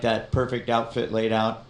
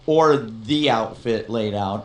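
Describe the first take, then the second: First: Said in the usual way. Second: Slow down and lean hard on THE; THE emphasized as the one and only; stress on THE. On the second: Real, not acted. Corrects himself, stressing the word the.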